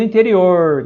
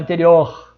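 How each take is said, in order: First: "interior" with the speaker's own countryside R; "interior", final R curled back; caipira R. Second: "interior" in another region's accent, final R changed; "interior" with a contrasting regional final R; other regional R. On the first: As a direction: say "interior" with an inland São Paulo R. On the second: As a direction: say "interior" as other Brazilians do, not with the countryside R. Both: Shown as a demonstration. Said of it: "Tem gente que fala interior".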